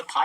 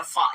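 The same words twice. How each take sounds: First: "फा" said as aspirated p, pʰa, the wrong way; wrong aspirated pha. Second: Fa from lip and teeth: "फा"; correct lip-teeth fa. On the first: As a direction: puff a plain p: "फा" as pha. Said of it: "ये फा नहीं है". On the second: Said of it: "मिला के आपने फा का उच्चारण करना है". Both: Shown as a demonstration.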